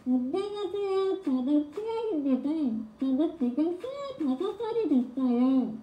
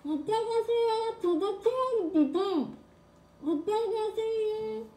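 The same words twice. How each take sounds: First: High voice through covered mouth; muffled mouth voice. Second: Much higher, slow, muffled; high voice through covered mouth. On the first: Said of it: "좀 잘 됐죠, 방금?". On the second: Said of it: "제 개인기". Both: Shown as a demonstration.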